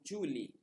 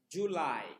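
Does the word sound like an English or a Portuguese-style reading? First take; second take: Portuguese-style; English. First: The word is read with a non-English pronunciation. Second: The word is read with the English pronunciation. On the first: The speaker calls it wrong. "não seria correto ler Julie" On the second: The speaker calls it right. "Mas sim July"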